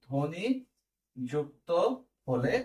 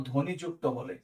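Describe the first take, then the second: First: ধ্বনি, যুক্ত, হলে each set apart by a pause; word-by-word dictation. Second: Said in the usual way. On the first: Shown as a demonstration. Teacher dictating a note to students, word-by-word dictation.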